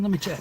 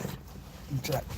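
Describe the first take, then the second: First: Said in the usual way. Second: Slow, soft whisper; playful stage whisper. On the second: Pretend. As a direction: sneak a hushed whisper like you're snooping. Mock search for crying liberals.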